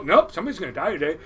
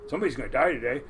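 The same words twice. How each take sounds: First: Fast, louder, stubborn warning; the voice insists, quicker; insistent inner voice. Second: Lower, ominous whisper of doom; a low creeping inner voice. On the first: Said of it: "you hear it go". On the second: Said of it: "this little voice in your head". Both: Retold or imitated.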